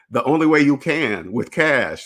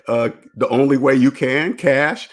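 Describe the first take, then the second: First: Flat statement with a falling end on cash; firm falling answer. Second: Unsure, rising tune, voice lifting at cash; hesitant rising answer. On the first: Showing viewers how to answer the credit crowd, firm falling tune. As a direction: settle it firmly, no doubt left. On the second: Telling viewers how not to answer the credit crowd, tentative rising tune. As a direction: offer it tentatively like a question. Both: Shown as a demonstration. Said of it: "Now you respond like that".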